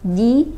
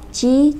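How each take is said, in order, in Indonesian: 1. Konsonannya tegas, tanpa desahan saat dilepas. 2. Konsonannya dilepas dengan desahan. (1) "jelas ja, ji, ju" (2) "huruf jim ada desahan gitu ya"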